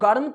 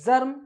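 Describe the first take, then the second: First: The word begins with a hard g sound. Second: The word begins with a j sound. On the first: The speaker calls it wrong. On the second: The speaker calls it right.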